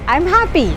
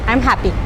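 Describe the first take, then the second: First: It is said in a lively, emotional voice. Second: It is said in a flat, unemotional voice. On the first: "you give an tone, you give an expression, you add an emotion" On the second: "it's a flat tone"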